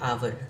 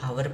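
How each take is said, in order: First: The word begins with a vowel sound. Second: The word begins with an h sound. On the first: The speaker calls it right. "इसको क्या पढ़ते हैं आवर" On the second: The speaker calls it wrong. "बहुत सारे लोग हावर पढ़ते हैं जो गलत है"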